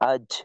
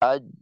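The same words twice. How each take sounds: First: The final j trails off with leaking air. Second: The final j stops fully, then releases. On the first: The speaker calls it wrong. "এভাবে একটা বাতাসের মতো থাকে" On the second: The speaker calls it right. "কিছুটা সামান্য সময়ের জন্য আওয়াজটা থেমে যায়"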